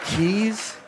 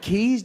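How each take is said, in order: First: Incredulous echo. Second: "Keys?" very high, disbelieving; mock incredulous. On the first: Retold or imitated. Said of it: "Keys? Do you think?". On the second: Comic mocking the man, "Keys?" in high disbelief. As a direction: echo "Keys?" with mock shock.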